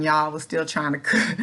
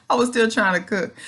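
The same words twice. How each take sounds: First: Said in the usual way. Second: Laughing through the repeat, a bit louder. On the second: Real, not acted. To viewers about cooking bedridden, amused laughing repeat. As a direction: laugh at yourself as you say it again.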